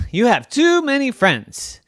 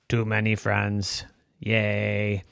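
First: High, loud exasperation on TOO; complain, hitting "too" high; exasperated complaint. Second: Low, deadpan robot cheer. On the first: Evan fed up with robot's guests, exasperated. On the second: Robot cheering its many friends, monotone robot voice. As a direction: echo it in an even robot drone. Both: Acted.

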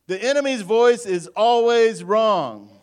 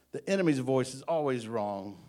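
First: High, loud, slow preacher's shout; emphatic proclamation. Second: Said in the usual way. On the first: Real, not acted. Preacher trying the other side of the congregation, emphatic proclamation. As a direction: belt it out to rouse the room.

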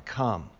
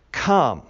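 First: Said in the usual way. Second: Firm, louder call; a mild boom on the one word; thunderous command. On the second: A narrator's reading. Living creature summons John in verse one, thunderous command. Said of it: "with a voice like thunder".

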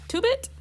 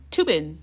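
First: "Tubit" ending in a t, asked with a much higher rise; "Tubit?" with a t at the end and a high questioning rise; name said Tubit. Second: "Tubin" ending in a clear n, falling; "Tubin" said firmly with a final n; name said Tubin. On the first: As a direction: try "Tubit" with a final t, as an unsure question. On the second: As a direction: say "Tubin" with an n at the end, settled. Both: Shown as a demonstration. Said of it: "Tubit or Tubin?".

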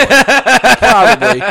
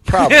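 First: Mock drawling probably; a goofy slow high drawl; slow high drawn-out probably. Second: Said in the usual way.

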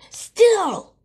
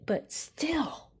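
First: Shouted high and loud; loud high yell. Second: Rising emphasis. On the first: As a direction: belt the word still. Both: Acted.

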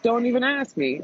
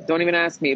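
First: "don't even ask me" jumps much higher, hard fall on "ask"; fed up, "ask" pitched high then dropped; emphatic refusal. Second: Said in the usual way. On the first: Retold or imitated. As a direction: snap it out high and final.

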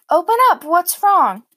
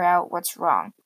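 First: High, loud worried call; calling through a door. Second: Said in the usual way. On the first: Retold or imitated. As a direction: call out to your child behind the door. Mom calling through bedroom door.

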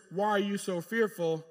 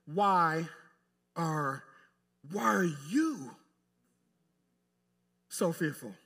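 First: Said in the usual way. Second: "you" drawn out and leaned on, slowly; stress on YOU. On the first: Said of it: "read it the way I think the emphasis". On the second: Shown as a demonstration. Preacher showing where the emphasis was, stress on "you". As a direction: break it up and stretch "you". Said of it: "the emphasis needs to be".

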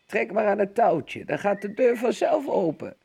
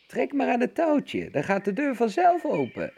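First: Hoger, licht schor oud vrouwtje; schor roepende oma. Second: Veel hoger, piepend nagedaan omastemmetje; de wolf piept alsof hij oma is; piepende wolf. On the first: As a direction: roep als een zieke oma vanuit bed. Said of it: "riep grootmoeder schor vanuit haar bed". (grootmoeder roept vanuit haar bed, licht schor) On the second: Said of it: "piepte de wolf". (wolf die zich als zieke oma voordoet, piepend hoog) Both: A narrator's reading.

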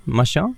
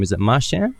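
First: Marchand with a French open "on" ending, questioning; second guessed pronunciation. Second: Marchand with a flat English "an" ending, questioning; guessed pronunciation. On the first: Host offering second guess at surname, French-style questioning Marchand. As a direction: ask Marchand as mar-SHON, higher and rising. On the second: Host checking guest's surname, anglicised questioning Marchand. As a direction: ask Marchand as mar-SHAN, rising. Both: Shown as a demonstration. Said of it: "how do you pronounce your surname?".

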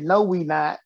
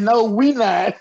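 First: Said in the usual way. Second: Louder, laughing through it; laughing punchline. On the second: Retold or imitated. Repeating his punchline for the host, laughing louder. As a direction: deliver the punchline cracking up. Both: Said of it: "I said".

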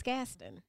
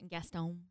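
First: "Gaston" as GAS-tun, second syllable reduced; local Savannah pronunciation. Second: "Gaston" as gas-TONE with a full long o; outsiders' pronunciation. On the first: Shown as a demonstration. Correcting a friend with the local "Gaston": GAS-tun. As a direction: hit the first syllable of "Gaston", schwa in the second. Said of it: "it's Gaston". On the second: Retold or imitated. Mocking how outsiders say "Gaston": gas-TONE. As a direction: draw out "Gaston" as gas-TONE, slowly. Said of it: "they say Gaston".

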